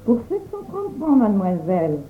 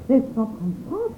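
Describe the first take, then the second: First: Said in the usual way. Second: Softer, dismayed repeat rising at the end; mild shocked echo of the price; frightened exclamation. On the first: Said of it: "demanda Thérèse". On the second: A narrator's reading. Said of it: "s'écria Thérèse effrayée".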